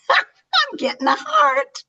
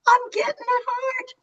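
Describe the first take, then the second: First: Breathless whispered laugh, very high. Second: Much higher, voice breaking with tears; real tears catching the words; tearful. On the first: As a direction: giggle it out in a whisper. Touched by a heart reaction. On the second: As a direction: choke up, overwhelmed. Moved to tears on screen. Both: Real, not acted.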